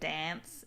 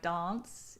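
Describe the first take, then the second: First: The word has a plainer Australian vowel. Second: The word has a posh Australian vowel. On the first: This is how others say it. "instead of dance" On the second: This is how the speaker's group says it. "I'm like the posh Australian... We say like dance"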